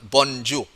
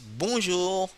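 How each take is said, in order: First: A clear n sound is pronounced after the vowel. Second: The vowel is nasal with no clear n. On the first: The speaker calls it wrong. "Not bonjour, no" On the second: The speaker calls it right. "But only nasal sound bonjour"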